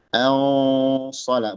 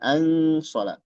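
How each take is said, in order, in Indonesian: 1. Huruf n disamarkan menjadi dengung hidung yang tebal. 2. Huruf n diucapkan dengan jelas sebagai n penuh. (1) "dibaca ikhfa itu samar"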